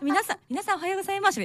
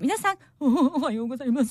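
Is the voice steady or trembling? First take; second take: steady; trembling. First: It is said in a normal, steady voice. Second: It is said sadly with a trembling voice.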